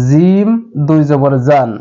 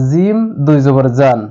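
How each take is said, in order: No difference in how they are said.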